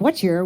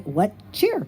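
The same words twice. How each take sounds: First: The two words are run together into one. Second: The two words are said clearly and separately. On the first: The speaker calls it wrong. "if you run it together" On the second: The speaker calls it right. "you have to enunciate"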